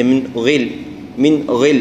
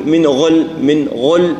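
First: "غل" with a clear i after a light gh; thin the gh of "غل" with a clean i vowel; lighter ghayn. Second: "غل" with a thick, dark gh and backed vowel; over-round the vowel in "غل"; over-heavy ghayn. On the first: Teacher correcting the heaviness, light gh. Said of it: "الكسر دائمًا يضعف التفخيم". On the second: Teacher showing excess heaviness, dark thick gh. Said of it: "المبالغة في تفخيمه وهي مكسورة". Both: Shown as a demonstration.

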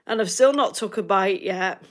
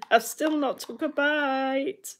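First: Said in the usual way. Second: Higher, slow, mock-plaintive whine; playful slow whinge about her uneaten breakfast. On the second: Repeats the complaint mock-plaintively.

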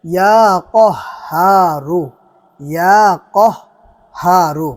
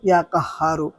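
First: ইয়া কহারু drawn out very slowly and louder, short clear vowels; correct Arabic pronunciation. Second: ইয়া কাহারু read plainly with a long Bengali কা; imitating the mistaken reading ইয়া কাহারু; wrong Bengali-style pronunciation. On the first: Shown as a demonstration. Teacher showing viewers the correct way, slow careful Arabic recitation. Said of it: "দোয়াটির বিশুদ্ধ উচ্চারণ". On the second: Teacher imitating another video maker's wrong reading, plain voice. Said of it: "তিনিও পড়তেছেন".

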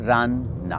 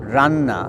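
First: "রান", a short pause, then "না"; split into syllables. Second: Said in the usual way. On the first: Shown as a demonstration. Teacher showing two syllables to learners, "রান" and "না" pronounced apart. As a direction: say "রান" and "না" as two separate sound pieces. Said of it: "আমরা দুটো ধ্বনিখণ্ড পাই". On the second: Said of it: "একটা শব্দ দেখুন".

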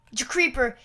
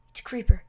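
First: Said in the usual way. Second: Hushed whisper "creeper". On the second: Real, not acted. Whispered take.

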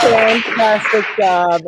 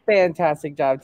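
First: Slow, louder gushing praise; enthusiastic praise. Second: Said in the usual way. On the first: Real, not acted. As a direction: cheer the performer on. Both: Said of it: "What an incredible performance".

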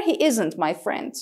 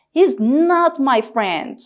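First: Said in the usual way. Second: He's not my friend, mit Nachdruck auf not; not hart betonen, bestimmt; emphatic not. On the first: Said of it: "This is not very emphatic". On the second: Shown as a demonstration. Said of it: "not is much more emphatic and strong".

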